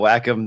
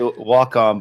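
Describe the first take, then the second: First: The first syllable sounds like 'whack'. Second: The first syllable sounds like 'walk'. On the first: This is another way people say it. "whack 'em, that's fine" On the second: This is the speaker's usual way of saying it. "I always say walk on"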